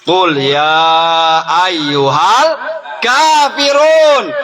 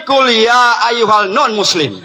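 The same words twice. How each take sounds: First: Sung, intone the verse like a reciter; sung, Quran recitation. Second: Mock version. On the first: Reciting Quran verse, slow chant. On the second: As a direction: parody the recitation with a grin. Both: Shown as a demonstration.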